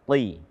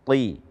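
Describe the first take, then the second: The two takes are said the same way.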